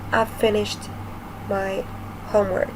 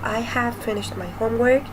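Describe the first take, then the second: First: The word have is shortened to I've. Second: The word have is said in full. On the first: "the pronunciation is going to be a little bit different" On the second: "Instead of saying"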